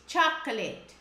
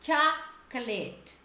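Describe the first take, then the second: First: CHOCOLATE joined up as "CHAK-uh-let", stress first; CHOCOLATE at natural pace, falling at the end; correct pronunciation. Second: CHOCOLATE split slowly as "CHAK ... let"; CHOCOLATE in slow, separated syllables, falling at the end; careful pronunciation. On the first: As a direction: model CHOCOLATE as one connected word. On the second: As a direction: model CHOCOLATE slowly, pausing after the first syllable. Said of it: "Essa palavra é muito pronunciada errada". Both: Shown as a demonstration.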